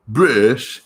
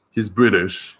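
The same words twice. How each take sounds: First: British said in a mock posh British accent; a quick, badly faked British accent on British; failed British accent. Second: Said in the usual way. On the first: Shown as a demonstration. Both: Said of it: "A failed attempt at a British accent".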